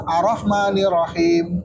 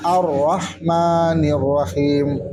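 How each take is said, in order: First: AR-RAHMANIR RAHIM run on with one light R each; undoubled Rs in "Ar-Rahmanir Rahim"; single R. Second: AR-RAHMANIR RAHIM slow, each R held double; measured "Ar-Rahmanir Rahim" with both Rs doubled; correct doubled Rs. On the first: Teacher testing students with the wrong reading, single R. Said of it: "Satu rohnya". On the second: Teacher modelling the verse, slow doubled R. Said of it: "Kalau bacanya". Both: Shown as a demonstration.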